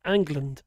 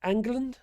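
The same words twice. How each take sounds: First: "England." said lower with a falling tune; settled England. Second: "England?" asked with a rising tune; questioning England. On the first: Streamer confirming the name, flat falling answer. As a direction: drop "England." down firmly as a statement. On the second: Streamer checking the chat's word, rising question. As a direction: lift "England?" up at the end as a puzzled query. Reading chat, questioning the name. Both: Real, not acted.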